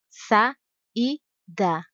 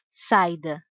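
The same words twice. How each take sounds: First: Sa and da spoken as separate syllables; syllables split. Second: Saida with the a and i glided together; wrong pronunciation. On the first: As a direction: break saída into its syllables. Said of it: "Outro exemplo". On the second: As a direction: run the a and i of saida into one syllable. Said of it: "Não se diz". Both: Shown as a demonstration.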